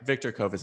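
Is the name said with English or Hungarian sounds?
English. The name is said with English sounds. This is an adapted form that is acceptable. "is totally fine"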